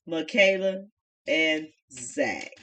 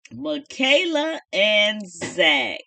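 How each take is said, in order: First: Said in the usual way. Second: Slow, stretched presentation of the names; slow showman intro; drawn-out announcement. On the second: Shown as a demonstration. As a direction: draw out each name like an announcer.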